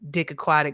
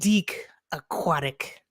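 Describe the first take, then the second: First: The first name has a short 'i' vowel. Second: The first name has a long 'ee' vowel. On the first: "his hilarious name" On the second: "I like to pronounce it Deke because I'm fancy"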